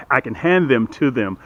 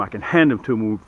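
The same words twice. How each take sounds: First: Full "them" both times, th sounded; careful self-correction. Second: Said in the usual way. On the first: Real, not acted. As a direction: say "hand them to them" with each "them" unreduced. Corrects own casual pronunciation.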